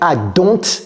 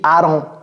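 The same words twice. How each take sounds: First: The word don't is said fully and carefully. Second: The word don't is reduced and runs together. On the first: The speaker calls it wrong. "J'ai pas dit I don't think" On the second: The speaker calls it right. "J'ai dit I don't"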